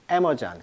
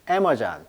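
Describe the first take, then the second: First: It is said the English way, first syllable stressed. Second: The same.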